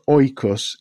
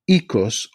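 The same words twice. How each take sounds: First: The word has the Erasmian pronunciation. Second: The word has a non-Erasmian pronunciation.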